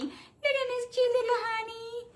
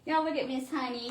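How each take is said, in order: First: Cooing at the dog. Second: Said in the usual way. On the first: Real, not acted. Owner cooing at the poodle Miss Honey, high baby talk.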